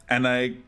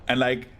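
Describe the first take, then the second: No difference in how they are said.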